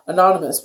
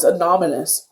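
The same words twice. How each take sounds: First: Said in the usual way. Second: "anonymous" garbled as "anominous"; tongue-tied slip. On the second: Real, not acted. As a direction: swap the n and m sounds in "anonymous". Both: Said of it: "I can't talk, my mouth's dry".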